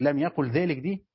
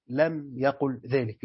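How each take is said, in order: First: Said in the usual way. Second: Slow, deliberate reading of the answer clause; slow emphasis. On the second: Shown as a demonstration. Teacher stressing the answer to students, slowly. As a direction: draw each word out to stress it.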